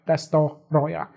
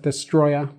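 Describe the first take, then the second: First: The name is said with four syllables. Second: The name is said with three syllables. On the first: The speaker calls it right. "but it's actually Destoroya. Four syllables" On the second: The speaker calls it wrong. "I said it wrong in this video. I said Destroya"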